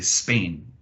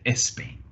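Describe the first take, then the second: First: The word starts directly with the S sound. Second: The word starts with an added eh vowel. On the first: "they won't say Spain" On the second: "They might say Espain"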